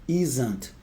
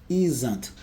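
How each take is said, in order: No difference in how they are said.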